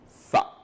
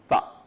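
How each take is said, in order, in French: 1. La consonne est un th, la langue entre les dents. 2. La consonne est un th, la langue entre les dents.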